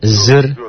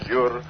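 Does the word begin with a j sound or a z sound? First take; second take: z sound; j sound. First: The word begins with a z sound. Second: The word begins with a j sound. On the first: The speaker calls it right. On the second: The speaker calls it wrong. "Bukan jur"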